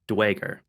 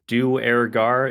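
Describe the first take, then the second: First: The word is run together with the r dropped. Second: The word is split into three separate parts. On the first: "they're leaving off the R, so it becomes Dwager" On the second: "the way I usually pronounce it is Duergar in kind of three parts"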